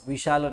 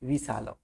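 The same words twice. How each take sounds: First: The middle consonant is a palatal 'sh' sound. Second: The middle consonant is a dental 's' sound. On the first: The speaker calls it wrong. "विशाल नहीं" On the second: The speaker calls it right. "एक ही स का प्रयोग होता है, दंत्य स"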